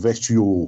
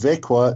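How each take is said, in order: First: The middle has a sh sound, ending shio. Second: The middle sounds like k, ending kwa. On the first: The speaker calls it wrong. "or Vekshio" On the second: The speaker calls it right. "It's pronounced Vekwa"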